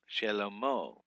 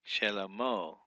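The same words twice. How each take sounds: First: A short vowel follows the first consonant. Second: The same.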